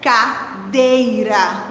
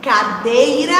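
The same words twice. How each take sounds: First: "cadeira" very slow, split as ca, dei-ra; syllable by syllable. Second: Said in the usual way. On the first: Shown as a demonstration. Teacher helps children hear the rhyme, syllable by syllable. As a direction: draw out each syllable of "cadeira". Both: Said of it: "Se eu parar bem pra pensar".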